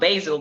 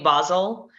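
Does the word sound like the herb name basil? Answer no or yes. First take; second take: yes; no. First: It is said like the herb's name. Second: It is not said like the herb's name. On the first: It names a plant used as a spice. The speaker calls it wrong. "A lot of people call it basil. Basil is a plant" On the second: It names the Swiss town. The speaker calls it right. "It's not basil, by the way"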